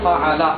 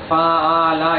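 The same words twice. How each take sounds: First: The sounds are run together in one go. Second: The sounds are stretched out and drawn long. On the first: The speaker calls it right. "एक ही साथ पढ़ना" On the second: The speaker calls it wrong. "ऐसे खींचना नहीं"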